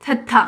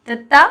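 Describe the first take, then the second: First: थत्था with breathy aspirated थ; teacher contrasting थत्था with तत्ता; aspirated letter name. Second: तत्ता with crisp plain त, no breath; hard clean त in तत्ता; teacher contrasting तत्ता with थत्था; unaspirated letter name. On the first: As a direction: puff of air on each थ of थत्था. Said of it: "टी एच ए टी एच ए". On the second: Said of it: "टी ए टी double ए". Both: Shown as a demonstration.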